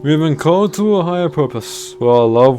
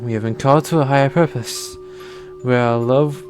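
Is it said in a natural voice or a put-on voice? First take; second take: put-on; natural. First: It is said in a put-on voice. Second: It is said in a natural voice.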